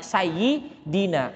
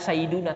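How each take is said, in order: First: The vowel after the d is i. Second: The vowel after the d is u. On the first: The speaker calls it right. "tapi sayyidina" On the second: The speaker calls it wrong. "Enggak mungkin"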